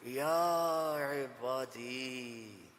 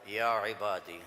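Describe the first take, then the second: First: It is said in a warm, loving tone. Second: It is said in a plain, neutral tone.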